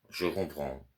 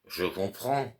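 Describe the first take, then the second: First: Said in the usual way. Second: Higher, scornful echo of the servant's words; mocking repeat. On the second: Master mocking the servant's curt reply, higher and scornful. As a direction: throw his own words back at him. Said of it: "Tu ne peux pas dire, oui, monsieur".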